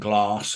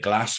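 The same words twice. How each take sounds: First: The vowel is said as in other English regions. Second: The vowel is said in a northern English way. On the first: "rather than saying glass" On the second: "I would say glass"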